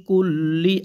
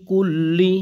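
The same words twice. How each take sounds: Both takes have the same delivery.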